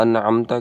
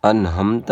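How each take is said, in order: First: انعمت as an'amta with throaty ain; careful Arabic ain in انعمت; correct ain in انعمت. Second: انہمت as "anhamta"; mistaken h for ain. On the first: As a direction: sound a clear ain after the n in انعمت. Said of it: "کے بجائے". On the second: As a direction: put a breathy h after n in انہمت. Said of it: "لوگ پڑھتے ہیں". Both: Shown as a demonstration.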